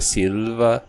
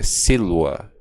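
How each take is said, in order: First: The second syllable starts with a v sound. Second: The second syllable starts with a w sound. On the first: This is the ecclesiastical pronunciation. "Tem a pronúncia eclesiástica, que seria silva" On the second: This is the classical pronunciation. "e tem a pronúncia clássica, que é silva. O V é pronunciado como se fosse um U"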